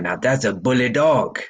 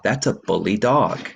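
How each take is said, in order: First: It is said with a French accent. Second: It is said in a plain, unaccented voice. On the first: "read it in the French accent" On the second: "if you didn't know he had an accent, you would read"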